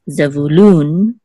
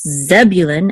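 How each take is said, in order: First: The stress is on the last syllable. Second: The stress is on the first syllable. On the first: "accent on the last syllable" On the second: "accent on the first syllable"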